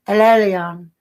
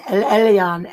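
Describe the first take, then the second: First: Imitating her foreign-accented "El Elyon", lightly voiced. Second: Said in the usual way. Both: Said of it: "she'd say it with that accent".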